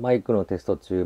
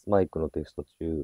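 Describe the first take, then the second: First: Background noise is heard without any reduction. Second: Background noise is reduced by noise reduction. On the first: "今オフですよっていう形になります。" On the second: "こちらノイズリダクションがレベル3 になっております。"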